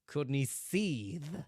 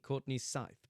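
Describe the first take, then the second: First: The surname has the 'ee' vowel, like seethe. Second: The surname has the 'eye' vowel, like scythe. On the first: "the Japanese sounds more like Courtney Seethe" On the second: "I go with Courtney Courtney Scythe"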